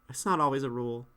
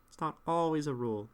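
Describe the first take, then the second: Both takes have the same delivery.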